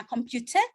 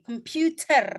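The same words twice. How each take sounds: First: "computer" the British way, no final r; British pronunciation. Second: "computer" the American way, r sounded at the end; American pronunciation. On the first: Teacher contrasting accents for students, British "computer" without the r. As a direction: end "computer" on a British open vowel. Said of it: "kalau kamu British". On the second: Teacher contrasting accents for students, American "computer" with final r. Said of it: "Kalau kamu American". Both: Shown as a demonstration.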